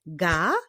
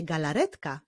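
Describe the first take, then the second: First: GALARETKA in four beats, GA, LA, RET, KA; measured GA... LA... RET... KA; syllable by syllable. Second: Said in the usual way. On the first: Shown as a demonstration. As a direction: pause between every syllable of "galaretka". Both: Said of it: "Wyklaszczmy sylaby w wyrazie galaretka".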